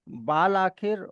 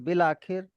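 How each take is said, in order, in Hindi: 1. पहला शब्द लंबी 'aa' स्वर के साथ बोला जाता है। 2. पहला शब्द छोटी 'i' स्वर के साथ बोला जाता है। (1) "बाल आखिर और बाल इरादा की जगह" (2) "अलिफ साइलेंट है और अलिफ की जगह पे जेर की साउंड है"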